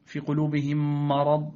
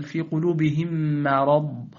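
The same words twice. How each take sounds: First: "مرض" with dark a after the merged m; wrongly heavy mim. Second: Slow "مرض" with thin front a after a held m; light mim. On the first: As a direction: thicken "مرض" after "قلوبهم". (تفخيم ميم "مرض") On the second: (ترقيق ميم "مرض") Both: Shown as a demonstration. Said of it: "لا، بل".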